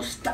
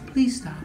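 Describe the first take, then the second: First: It is said in a demanding, forceful way. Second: It is said in a gentle, polite way.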